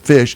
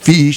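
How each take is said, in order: First: The word has the standard vowel. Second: The word has the island dialect vowel. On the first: "instead of fish" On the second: "that vowel pronunciation as fish"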